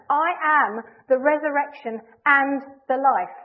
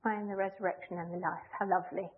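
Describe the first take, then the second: First: Much louder and slow, every word driven home; slow, loud, absolutely determined declaration; emphatic. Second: Soft, lower, limp and offhand; a half-hearted shrug of a line; wishy-washy. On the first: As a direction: proclaim it with full conviction. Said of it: "He's emphatic". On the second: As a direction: toss it off softly like it hardly matters. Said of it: "wishy-washy way". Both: Shown as a demonstration.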